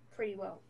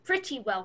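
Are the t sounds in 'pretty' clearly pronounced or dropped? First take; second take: dropped; clearly pronounced. First: The words are said loosely, not clearly enunciated. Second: The words are said carefully, with clear enunciation. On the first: The speaker calls it wrong. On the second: The speaker calls it right.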